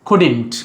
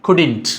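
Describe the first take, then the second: No difference in how they are said.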